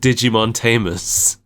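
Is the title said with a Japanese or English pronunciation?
English. The title is said with English pronunciation. The speaker calls it right. "It's called Digimon Tamers"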